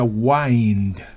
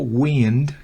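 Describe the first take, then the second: First: It is said with the verb's pronunciation. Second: It is said with the noun's pronunciation. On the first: It means to wind or coil. "como verbo se pronuncia wind" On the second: It means moving air. "como sustantivo wind, que significa viento"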